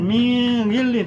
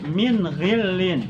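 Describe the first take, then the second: First: The n is concealed into a nasal sound. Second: The n is pronounced clearly and distinctly. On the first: The speaker calls it wrong. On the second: The speaker calls it right.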